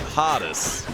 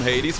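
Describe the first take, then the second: First: The name has its German pronunciation. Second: The name has its English pronunciation. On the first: This is how the speaker grew up saying it. "we say Hades. Which, by the way, I think sounds much cooler" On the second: This is how the game and English speakers say it. "We don't call him Hades"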